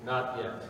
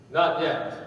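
First: Low, softer not yet; quiet reply. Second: Calm, unhurried not yet; gentle reply. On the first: Master quietly refusing the dizzy clay. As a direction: answer under your breath, unmoved. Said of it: "said quietly". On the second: Master gently answering the protesting clay. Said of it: "gently said". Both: A narrator's reading.

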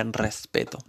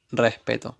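First: Said in the usual way. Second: "Respeto" with the s aspirated away; "Respeto" with the s barely breathed; swallowed s. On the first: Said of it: "en circunstancias normales diría respeto". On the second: Shown as a demonstration. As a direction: say "Respeto" dropping the s like the actress. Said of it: "Y creo que yo también, recién".

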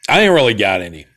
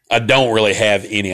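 First: Said in the usual way. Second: Mock-proper broadcast correction; properly spoken. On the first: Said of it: "get rid of the accent". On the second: Shown as a demonstration. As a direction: say it properly, as if on air. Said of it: "speak properly or whatever".

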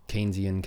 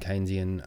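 First: Keynesian with a KEEN first syllable; alternative pronunciation. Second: Keynesian with a KAYN first syllable; alternative pronunciation. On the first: Host hedging between both versions, Keynesian said KEEN-zee-un. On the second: Host hedging between both versions, Keynesian said KAYN-zee-un. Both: Shown as a demonstration. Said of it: "is it Keynesian or Keynesian".

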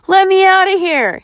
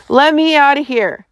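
First: High-pitched, insistent demand; panted demand. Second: Higher-pitched, restrained roar; roared demand. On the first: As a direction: demand release from being trapped. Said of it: "he demanded, panting". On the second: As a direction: roar to be let out, without full volume. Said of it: "Slate roared". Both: A narrator's reading.

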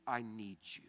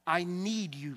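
First: Hushed, breathy-free whisper of need; whispered plea. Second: Said in the usual way. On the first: Acted. Pastor voicing a humble prayer to God, whispered.

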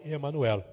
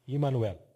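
First: Said in the usual way. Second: "Imanuel" opening on "ee" rather than "eh"; Hebrew initial I. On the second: Shown as a demonstration. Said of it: "I, com I".

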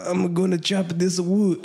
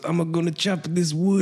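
First: Slow, put-on Spanish accent as grandpa; grandpa's words in a Spanish accent. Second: Lightly put-on Spanish accent, ending on a rise; a lighter second try at the Spanish accent; Spanish accent again. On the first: Retelling grandpa chopping wood, in a Spanish accent. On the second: Repeating grandpa's line to the co-host, in a Spanish accent. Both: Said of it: "my best, uh, Spanish accent".

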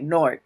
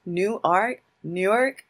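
First: Nork, one quick syllable with an O; native Newark pronunciation. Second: New Ark, two drawn-out syllables; wrong outsider pronunciation. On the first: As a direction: say Nork short and clipped like a local. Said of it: "natives say it, like, with a O". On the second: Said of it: "it's not like". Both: Shown as a demonstration.

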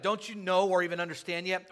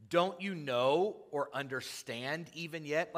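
First: Higher, louder exasperated rebuke; frustrated Jesus. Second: Mildly testy, drawn-out rebuke; slow, lightly exasperated question; Jesus getting a little salty. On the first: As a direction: raise the voice in irritated disbelief. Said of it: "He's getting a little frustrated". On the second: Jesus to his arguing disciples, a little salty. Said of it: "you can hear Jesus getting a little salty". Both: Acted.

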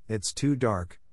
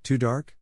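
First: Hesitant objection, falling at the end; mildly dismayed child's objection; mild protest. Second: "Too dark" rising into a question; "dark" lifted as a sceptical query; disbelieving echo question. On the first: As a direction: protest it as a worried excuse. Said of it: "cried Anne". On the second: Marilla echoes Anne's excuse in disbelief. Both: A narrator's reading.

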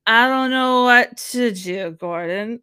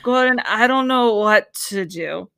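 First: Slow, louder helpless whine at Gordon; a hint of a drunk, helpless restaurant owner; impression of the owner. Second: Slow, drawn-out helpless plea to Gordon; wife pleading with Gordon, a hammed-up drunk whine; drunk Long Island wife. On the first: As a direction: play a lost Long Island wife, lightly. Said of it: "that's a great impression of her". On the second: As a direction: slur it like she's had a few. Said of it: "That's exactly what it is".

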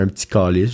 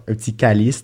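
First: CALICE with a back, dark Québécois A. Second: CALICE with a light front A, as in France; French-style calice. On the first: Québécois quoting a Frenchman's request, CALICE with a dark back A. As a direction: say CALICE the Quebec way, "kah-liss" with a rounded A. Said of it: "genre, un petit, ah non". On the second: Frenchman asking a Québécois to swear, CALICE with a light front A. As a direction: say CALICE as a Frenchman would, "ka-leess". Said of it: "j'imite beaucoup l'accent québécois". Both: Retold or imitated.

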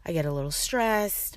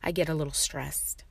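First: Mildly worked-up repeat of the line; stressed tone. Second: Said in the usual way. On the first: Shown as a demonstration. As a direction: let a little stress creep into the voice. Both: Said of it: "My tone of voice goes up".

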